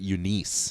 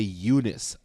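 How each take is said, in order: First: The name ends in a long 'neese' sound. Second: The name ends in a short 'nis' sound. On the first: This is how it is said in the Philippines. "they pronounce it Eunice. ... It's like Denise" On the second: This is how people say it here. "when people would say Eunice here"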